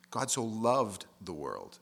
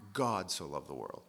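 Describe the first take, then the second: First: "loved" leaned on, slow and deliberate; stress on loved. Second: Even, unstressed reading of the verse; plain reading. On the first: Preacher showing how "loved" carries the verse, slow stress. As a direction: weigh the word "loved" slowly. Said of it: "putting emphasis on each different thing". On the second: Preacher reading the verse plainly to the congregation. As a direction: say it plainly before stressing words. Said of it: "read it putting emphasis on different things". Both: Shown as a demonstration.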